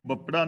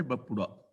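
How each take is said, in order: First: ਬਪੜਾ said without the u vowel, bapṛa; wrong reading. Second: ਬਪੁੜਾ with a clear u after the p, bapuṛa; correct reading. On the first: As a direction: read it as ਬਪੜਾ, no u after the p. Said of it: "ਇਹਨੂੰ ਬਪੜਾ ਨਹੀਂ ਪੜ੍ਹਨਾ". (ਗਲਤ ਉਚਾਰਨ ਬਪੜਾ, ਪੱਪੇ ਨੂੰ ਔਂਕੜ ਤੋਂ ਬਿਨਾਂ) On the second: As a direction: sound the u in ਬਪੁੜਾ. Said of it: "ਪੱਪੇ ਥੱਲੇ ਔਂਕੜ ਹੈ". (ਸਹੀ ਉਚਾਰਨ ਬਪੁੜਾ, ਪੱਪੇ ਨੂੰ ਔਂਕੜ ਨਾਲ) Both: Shown as a demonstration.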